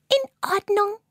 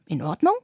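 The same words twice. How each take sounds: First: Much higher tiny spider chirping "In Ordnung"; little spider eagerly calls "In Ordnung"; eager agreement. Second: Low, gentle Carla asking "In Ordnung?" with a rise; snail asking. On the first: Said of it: "ruft Fiona". (hoch und eifrig: „In Ordnung“) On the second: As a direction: lower snail voice checking "In Ordnung?". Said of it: "sagt Carla". (tief und sanft fragend: „In Ordnung?“) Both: A narrator's reading.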